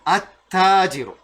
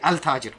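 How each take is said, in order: First: The l sound is silent, merged into the t. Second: The l sound is pronounced before the t. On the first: The speaker calls it right. "you silent the L" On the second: The speaker calls it wrong. "you don't say al-tajiru. ... no"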